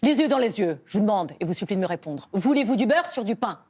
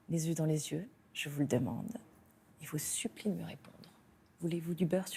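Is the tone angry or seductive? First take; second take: angry; seductive. First: It is said in an angry tone. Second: It is said in a seductive tone.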